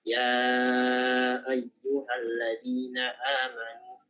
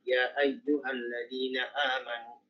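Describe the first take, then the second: First: The lengthened vowel is held for four counts. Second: The lengthened vowel is held for two counts. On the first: "lewat Hafs dari Jaya Syatibiyah empat harokat" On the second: "Madda isya dua harokat misalnya"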